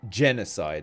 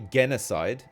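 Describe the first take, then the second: First: It begins with a soft G sound. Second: It begins with a hard G sound. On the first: The speaker calls it right. "You would say" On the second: The speaker calls it wrong. "You wouldn't say"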